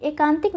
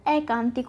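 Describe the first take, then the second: First: एकांतिक opening on "e"; एकांतिक with a close first vowel; wrong form shown. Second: एकांतिक opening on "ai"; एकांतिक with an open first vowel; correct form shown. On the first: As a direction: say एकांतिक as e-kān-tik. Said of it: "एकांतिक नहीं होता". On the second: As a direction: say एकांतिक as ai-kān-tik. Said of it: "एकांतिक होता है". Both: Shown as a demonstration.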